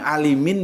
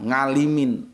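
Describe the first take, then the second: First: The name begins directly with a vowel sound. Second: The name begins with an ng sound. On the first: This is the original Arabic form of the name. "Bilang alimin ya nggak bisa" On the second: This is how Javanese speakers say the name.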